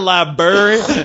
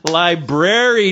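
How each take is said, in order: First: The r after the b is dropped. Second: The r after the b is clearly pronounced. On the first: The speaker calls it wrong. "not library" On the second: The speaker calls it right. "Lie dash brary"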